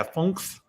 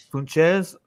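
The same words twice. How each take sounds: First: "Funks" as one syllable, ending in nks; corrected pronunciation. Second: "Funches" in two syllables, FUN-chez; tentative pronunciation. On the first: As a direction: say "Funks" with a hard k before the s. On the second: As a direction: try "Funches" with a ch in the middle, pitched up unsurely. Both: Shown as a demonstration. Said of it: "I don't know how to pronounce his name".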